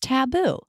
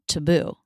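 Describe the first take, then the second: First: The first syllable has a full 'ah' vowel. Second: The first syllable has a reduced schwa vowel. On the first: "I was putting the A vowel, Ta" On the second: "they were putting a schwa in the first syllable"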